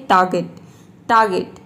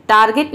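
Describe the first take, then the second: First: टारगेट with only a half r, 'taa-get'. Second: टारगेट with a full r, the wrong way; wrong pronunciation. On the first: Teacher modelling टारगेट, half r. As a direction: say टारगेट with the r nearly silent. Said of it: "आधा र का sound दे सकते हैं". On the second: Teacher showing students the wrong टारगेट. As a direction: say टारगेट as 'taar-get'. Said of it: "टारगेट नहीं". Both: Shown as a demonstration.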